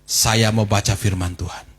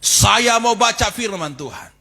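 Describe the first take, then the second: First: It is said at normal loudness. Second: It is said louder and more firmly.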